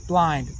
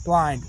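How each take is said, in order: Both takes have the same delivery.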